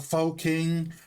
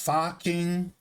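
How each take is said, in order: First: The first word has a long 'oh' vowel. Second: The first word has a short 'uh' vowel. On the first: The speaker calls it wrong. "I thought were like pronounced" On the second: The speaker calls it right. "No, they're all pronounced"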